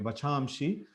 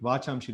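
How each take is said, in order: First: The first vowel is short. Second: The first vowel is long. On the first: The speaker calls it right. "So here Va, small A is there" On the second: The speaker calls it wrong.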